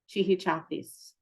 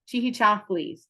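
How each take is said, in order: First: No lateral sound comes before the ending. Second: A lateral 'thl' sound comes before the ending. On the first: This is the form many fluent speakers use. "the way I hear Mahia Barnett say it is chihichafis" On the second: This is the form taught in college. "how I learned it is chihi chaflis with a the for the R sound"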